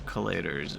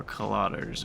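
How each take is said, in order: First: "collators" as kuh-LAY-ders; variant pronunciation. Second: "collators" as kuh-LAH-ders; variant pronunciation. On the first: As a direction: stress the middle of "collators" with a long AY. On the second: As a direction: stress the middle of "collators" with an open AH. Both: Shown as a demonstration. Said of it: "ten different ways you could pronounce that".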